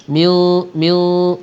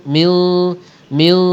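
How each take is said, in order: No difference in how they are said.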